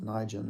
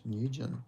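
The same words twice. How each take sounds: First: "Nigel" said as NIGH-jun; rejected pronunciation. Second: "Nugent" said as NEW-jun; preferred pronunciation. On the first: Streamer rejecting a way to say the surname, "Nigel" as NIGH-jun. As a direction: say "Nigel" with a long "eye" first vowel. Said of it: "I don't think it's pronounced". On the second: Streamer settling on the surname's sound, "Nugent" as NEW-jun. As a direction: say "Nugent" with a "new" first syllable. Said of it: "I think it's Nugent". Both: Shown as a demonstration.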